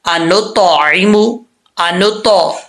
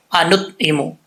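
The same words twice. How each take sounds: First: अनुतइमु with a bounced, echoing त sound; with qalqala. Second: अनुतइमु said flat with no qalqala on त; the careless way, no bounce on the त; wrong common reading. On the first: Teacher shows the correct qalqala on अनुतइमु, slow. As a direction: let the त in अनुतइमु bounce clearly. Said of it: "कैसे कलकला करके पढ़ना है". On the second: Teacher shows students the wrong way, अनुतइमु without qalqala. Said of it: "ऐसा नहीं पढ़ना जैसे हम लोग पढ़ते हैं". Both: Shown as a demonstration.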